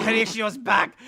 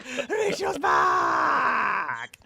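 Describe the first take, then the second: First: Puppet announcing himself. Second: High, very slow puppet yell; drawn-out puppet shout. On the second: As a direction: stretch every syllable and yell it out. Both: Acted.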